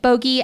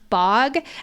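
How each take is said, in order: First: The word is said as two syllables. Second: The word is said as one syllable. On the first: "she starts pronouncing it bogey" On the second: "in book one audiobook, it's pronounced bog"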